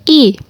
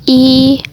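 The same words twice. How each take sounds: First: The vowel carries the fourth tone. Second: The vowel carries the first tone. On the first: "nada keempat" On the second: "Nada pertama"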